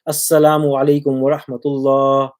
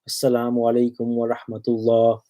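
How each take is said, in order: First: It is said slightly louder. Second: It is said slightly quieter.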